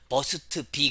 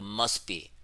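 First: The two words are said separately. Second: The two words run together smoothly. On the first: The speaker calls it wrong. "그러지 말고" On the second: The speaker calls it right. "연음을 하란 말이야"

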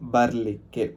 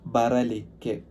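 First: The middle vowel is dropped, shortening the word. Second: The middle vowel is fully pronounced. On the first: This is the informal form. "ഇൻഫോർമലായിട്ട് ബർലിക്ക് എന്ന് പറയും" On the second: This is the standard form. "വരാൻ എന്നതിന് ബറലിക്ക് എന്നാണ്"

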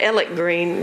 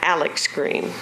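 First: The first name ends in a plain k sound. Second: The first name ends in a ks sound. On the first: The speaker is a local. The speaker calls it right. "You know your Whites Creek if you pronounce the elementary school there Alec Green" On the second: The speaker is an outsider. The speaker calls it wrong. "not Alex Green"

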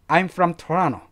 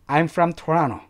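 No difference in how they are said.

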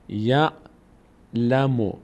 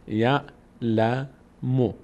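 No difference in how they are said.

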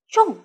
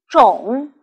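First: The syllable has a sharply falling tone. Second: The syllable has a low dipping tone. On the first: It means to plant, an action. "重在表示动作的时候读第四声，和老师一起读" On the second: It means seed or kind, not an action. "其他的时候我们读第三声种，请和老师一起读"

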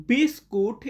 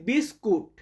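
Both takes have the same delivery.

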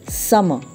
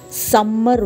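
First: The middle consonant is short and light. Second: The middle consonant is held long and forceful. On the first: The speaker calls it right. "it's summer" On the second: The speaker calls it wrong. "it's not summer vacation"

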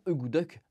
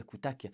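First: It is said with native, softened consonants. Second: It is said with crisp French-style consonants. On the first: The speaker calls it right. "qui se prononce d'ailleurs euh, normalement" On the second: The speaker calls it wrong. "que j'adore prononcer akutak, parce que je suis un Français débile qui aime prononcer mal les choses"

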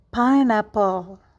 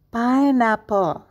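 The two takes are said the same way.

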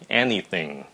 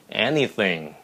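Both takes have the same delivery.

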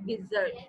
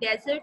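First: The stress is on the second syllable. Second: The stress is on the first syllable. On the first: It means suddenly losing courage or abandoning. "Dessert जो होता है वो अचानक हिम्मत हार जाना" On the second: It means a sandy wasteland like the Sahara. "Desert हम सहरा को कहते हैं"

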